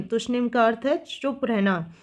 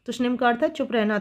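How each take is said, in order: First: Said in the usual way. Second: Faster, brisk run-through of तुष्णिम का अर्थ है चुप रहना; quick teacher's repeat. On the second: Shown as a demonstration. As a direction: rattle the definition off quickly for emphasis.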